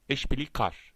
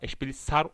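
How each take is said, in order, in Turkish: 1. Son ünlüden önceki ünsüz k sesidir. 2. Son ünlüden önceki ünsüz s sesidir. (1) "kalın ünlü geliyor ve A ile yani eşbili kar" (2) "Eşbili sar olmuyor yani"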